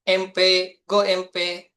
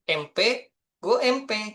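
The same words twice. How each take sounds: First: It is said as a firm declarative slogan. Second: It is said with questioning intonation. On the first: It is the program's proud slogan. "jargon kita itu" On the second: It asks where the program's graduates will go. "dengan intonasi yang berbeda mungkin ya"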